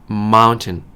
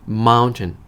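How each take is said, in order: No difference in how they are said.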